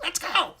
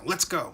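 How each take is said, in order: First: It is said in a squeaky voice. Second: It is said in a normal voice.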